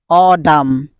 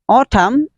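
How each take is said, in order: First: It is said with an American accent. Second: It is said with a basic, non-American accent. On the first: "but American pronunciation is autumn" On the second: "Autumn is the basic pronunciation"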